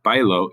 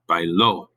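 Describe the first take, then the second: First: The stress is on the first syllable. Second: The stress is on the last syllable. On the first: "This is not bailo" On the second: "There's an actual stress at the end"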